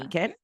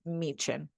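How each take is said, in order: First: The middle consonant is a hard k sound. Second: The middle consonant is a ch sound. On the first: This is how an American would read it. The speaker calls it wrong. "as an American, we would say like Myken or Meekin" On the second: This is how the locals say it. The speaker calls it right. "they are pronounced like C H. So I think I say this Meechin"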